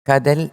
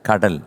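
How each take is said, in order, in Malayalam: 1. മധ്യ വ്യഞ്ജനം വ്യക്തമായ r അല്ല. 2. മധ്യ വ്യഞ്ജനം വ്യക്തമായ r ആണ്. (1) "കടൽ അല്ല" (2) "കരൾ എന്നുള്ള രാ കറക്റ്റായിട്ട് വരണം"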